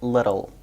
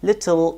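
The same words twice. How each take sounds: First: It has an American accent with a flap T. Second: It has a British accent with a clear T.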